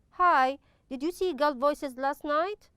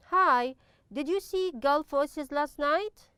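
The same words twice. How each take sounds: First: Hi, did you see Gulf Voices last night? rising again at the end; read as a question. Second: Hi, did you see Gulf Voices last night? with a rising question tune; read as a question. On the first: Teacher repeats the model question to students, rising tune. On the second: Teacher modelling a question for students, rising tune. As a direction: ask it with a lift at the end. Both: Shown as a demonstration. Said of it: "As you notice, it's a question".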